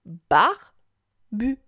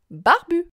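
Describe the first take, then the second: First: "Barbu" as a loud "bar", long gap, then "bu"; syllable by syllable. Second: Said in the usual way. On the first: Shown as a demonstration. Teacher asks child to listen, "Barbu" syllable by syllable. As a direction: break "Barbu" slowly into two syllables. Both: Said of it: "Écoute".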